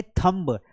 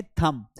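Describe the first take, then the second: First: थंब with the b sounded at the end, thumb-b; wrong pronunciation. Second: थंब with a silent b, just thum; correct pronunciation. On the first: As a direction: say थंब and pronounce the final b clearly. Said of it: "अरे थंब नहीं बोलते हैं". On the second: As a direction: say थंब ending on the m, no b. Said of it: "बी silent है". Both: Shown as a demonstration.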